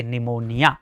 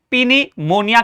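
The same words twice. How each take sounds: First: निमोनिया with silent p; low, final निमोनिया starting straight on n; right pronunciation. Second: पिनीमोनिया with the p sounded; wrong pronunciation. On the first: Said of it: "यानी इसे क्या पढ़ेंगे". (निमोनिया, 'प' चुप रखकर) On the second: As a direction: begin पिनीमोनिया on an audible pi-. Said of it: "wrong हो जाएगा". (पिनीमोनिया में 'प' बोलकर गलत उच्चारण) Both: Shown as a demonstration.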